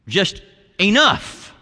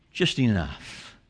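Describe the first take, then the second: First: Raised, drawn-out exclamation; mild shout. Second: Low, slow and soft; hushed finish. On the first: Preacher voicing the word of Jesus' return, mild shout. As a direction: lift it high and stretch it out. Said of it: "come back with a loud shout". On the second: Preacher closing the list of suffering, hushed. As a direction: drop right down and let it settle. Quiet close of the shouted list. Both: Acted.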